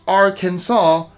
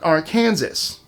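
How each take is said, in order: First: The final S is not pronounced. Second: The final S is pronounced. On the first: The speaker calls it right. "with the final S silent" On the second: The speaker calls it wrong. "not Arkansas"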